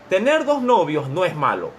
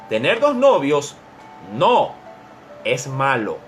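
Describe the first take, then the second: First: It is read straight through without a pause. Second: It is read with a comma pause around no.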